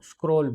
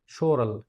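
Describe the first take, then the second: First: The word begins with an 'sk' sound. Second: The word begins with an 'sh' sound. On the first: The speaker calls it wrong. "अक्सर जेमालोजिस्ट यहाँ पे गलती करते हैं" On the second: The speaker calls it right. "इसकी जो pronunciation है वो है शोरल"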